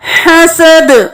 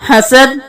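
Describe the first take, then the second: First: The final consonant has an echoing bounce. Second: The final consonant is flat with no bounce. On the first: The speaker calls it right. "तमाम अल्फाज पे कलकला हो रहा है" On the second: The speaker calls it wrong. "इस तरह से कलकला छोड़ जाता है"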